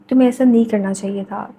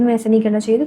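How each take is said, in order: First: It is said slowly with pauses. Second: It is said quickly without pausing. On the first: "थोड़ा ठहर के बात कर सकते हो" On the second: "आप गुस्से में भी बात कर रहे हो"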